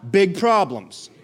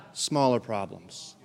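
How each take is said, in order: First: Slow, punchy BIG PROBLEMS, voice held up; big, emphatic callout. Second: Low, soft and slow "smaller problems"; shrunken small voice. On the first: Preacher leads congregation to say big problems, emphatic callout. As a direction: make "big problems" sound big. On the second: Preacher shows congregation big God shrinks problems, small hushed voice. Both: Shown as a demonstration.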